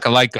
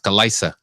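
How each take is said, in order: First: The middle consonant is a k sound. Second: The middle consonant is an s sound. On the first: The speaker calls it wrong. "not Kalika" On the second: The speaker calls it right. "it's Kalisa"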